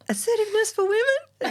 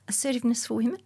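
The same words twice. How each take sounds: First: It is said more loudly. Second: It is said very quietly.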